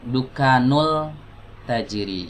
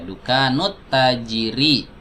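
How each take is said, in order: First: An L sound links the two words. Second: A doubled T sound links the two words. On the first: The speaker calls it wrong. "awas, jangan dibaca dukanul tajiri" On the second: The speaker calls it right. "huruf ta ini adalah huruf syamsiyah"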